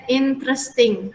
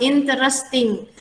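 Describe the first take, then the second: First: The word is said with three syllables. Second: The word is said with four syllables. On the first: The speaker calls it right. "interesting tiga syllable" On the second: The speaker calls it wrong. "Jangan bilang interesting. Interesting itu salah"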